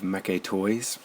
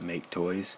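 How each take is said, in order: First: The first word has two syllables, like mecha. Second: The first word has one syllable, like make.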